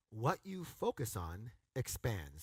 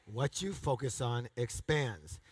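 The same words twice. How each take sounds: First: Slow and deliberate; slow emphatic. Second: Slow and deliberate; slow emphatic repeat. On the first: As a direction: lay out each word. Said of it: "Say that with me". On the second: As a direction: lay it out for your neighbor. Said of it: "Tell your neighbor". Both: Shown as a demonstration.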